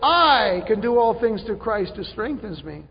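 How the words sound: The stress falls on 'all things'. The focus is on what the person can do. The speaker calls it wrong. "we stress the wrong word in that sentence. We like to say"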